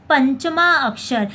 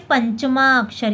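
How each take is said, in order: First: पंचमा अक्षर said slowly, each word stressed; slow emphatic repeat. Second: Said in the usual way. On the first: Shown as a demonstration. Teacher repeating the term for students, slow and stressed. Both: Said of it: "क्या बोलते हैं?".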